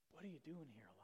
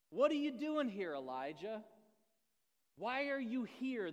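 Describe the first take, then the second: First: Unvoiced, soft whisper; God whispering to Elijah. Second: Loud, high, stern question from above; God thundering the question; booming voice of God. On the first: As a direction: breathe it like a still small voice. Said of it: "the sound of a low whisper". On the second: Acted. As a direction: call him out, demanding.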